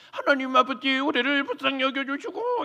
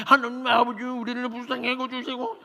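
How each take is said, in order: First: High prayer with pushed-out lips; pouting prayer voice. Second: High, pouty mocking prayer; children imitating the pouty prayer; kids mimicking prayer. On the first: Retold or imitated. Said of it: "입술을 쭉 내밀고 하시는 포즈". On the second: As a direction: copy the elder's prayer teasingly. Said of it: "성대 묘사를 하고 있더라는 거예요".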